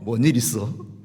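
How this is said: It is said in a regional dialect.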